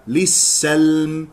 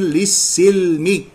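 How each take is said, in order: First: "للسلم" said lis-salm, with clear a; fatha on sin. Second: "للسلم" said slowly as lis-silmi; kasra on sin. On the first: Teacher giving the correct reading, "للسلم" as lis-salm. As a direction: put an a after the s in "للسلم". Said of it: "والصواب فتحها". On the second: Teacher showing the mistake, slow "للسلم" as lis-silmi. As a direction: put a drawn i after the s in "للسلم". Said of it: "فيقرأ للسلم بكسر السين". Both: Shown as a demonstration.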